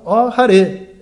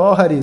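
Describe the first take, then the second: First: "Ó Hare" ending in e, called out and falling; right vocative. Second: Said in the usual way. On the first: Shown as a demonstration. Teacher gives the correct Sanskrit vocative, called firmly. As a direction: call "Ó Hare" with the final e clear. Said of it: "você fala". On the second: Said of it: "você não fala".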